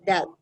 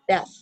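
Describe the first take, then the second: First: The word ends without a clear th sound. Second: The word ends with a clear th sound. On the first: The speaker calls it wrong. "But if I pronounce it wrong" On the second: The speaker calls it right. "If I pronounce it correctly"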